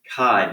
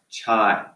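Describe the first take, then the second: First: The word begins with a 'k' sound. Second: The word begins with a 'ch' sound. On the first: The speaker calls it right. "chi-squared is pronounced chi" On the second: The speaker calls it wrong. "not chai"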